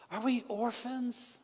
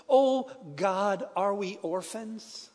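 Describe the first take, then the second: First: The question again, softer and higher, slow and near tears; softer tearful repeat. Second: A pastor praying through tears, voice a little slow; tearful prayer. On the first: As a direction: let it fall away almost to nothing as you ask again. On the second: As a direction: plead with God as if close to crying. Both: Retold or imitated. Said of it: "in his own tears".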